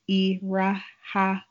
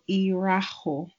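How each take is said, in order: First: The word ends with an 'a' vowel. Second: The word ends with an 'o' vowel. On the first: This is the regional dialect form. "That is more specifically the Imo State dialect of it" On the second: This is the standard form. "where there's the o instead of the a"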